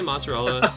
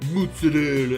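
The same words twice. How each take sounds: First: It is said with a plain English accent. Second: It is said with an exaggerated Italian-style accent. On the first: The speaker is not putting on airs. The speaker calls it right. "Just say mozzarella. You're not Italian" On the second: The speaker is pretending to be Italian. The speaker calls it wrong. "they're like mozzarella"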